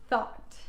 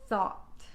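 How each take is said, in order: Both takes have the same delivery.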